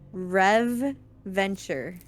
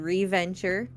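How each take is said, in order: First: It is said as two separate words. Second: It is said as one blended word. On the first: "I'm going to pronounce it a certain way for this reason" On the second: "It could be Reventure"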